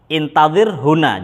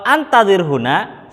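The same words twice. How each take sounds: First: "Intadir huna" slow, with a clear i at the start; slow careful intadir. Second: "antadir huna" slow, with an open a at the start; slow careful antadir. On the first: Teacher reading "Intadir huna" slowly for the class. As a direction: spell out "Intadir" with an i. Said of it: "Kalau di intadir artinya". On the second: Teacher reading "antadir huna" slowly to contrast it. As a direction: spell out "antadir" with an a. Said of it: "Kalau antadir huna". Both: Shown as a demonstration.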